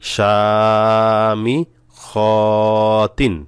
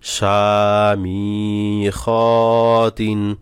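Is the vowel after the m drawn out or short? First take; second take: short; drawn out. First: The vowel after the m is short. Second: The vowel after the m is drawn out. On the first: The speaker calls it right. "মিমে টান হবে না" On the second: The speaker calls it wrong. "শামি খ তিন হয়নি, কারণ মিমে আমি টান দিয়েছি"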